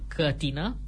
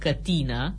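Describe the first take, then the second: First: The stress is on the first syllable. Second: The stress is on the second syllable. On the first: The speaker calls it wrong. "Greșit" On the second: The speaker calls it right. "cu accentul pe i-ul din silaba a doua"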